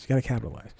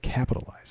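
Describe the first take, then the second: First: Said in the usual way. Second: Whispered capitalize, breathy and hushed; whispering. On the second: Acted. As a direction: hush the word capitalize. Whispered repeat of his point.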